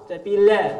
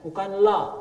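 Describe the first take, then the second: First: The l sound is light and thin. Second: The l sound is heavy and thickened. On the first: The speaker calls it right. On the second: The speaker calls it wrong.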